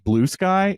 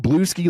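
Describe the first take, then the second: First: The name ends in 'sky', like the word sky. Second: The name ends in 'skee', rhyming with brewski. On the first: The speaker calls it right. "Oh, it's Blue Sky" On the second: The speaker calls it wrong. "I was saying Blueski like brewski"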